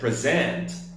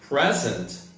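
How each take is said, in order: First: The stress is on the second syllable. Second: The stress is on the first syllable. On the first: It is a verb meaning to give or show. "a verb that means to give or to show" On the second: It is a noun meaning now or a gift. "a noun that means either right this moment or a gift"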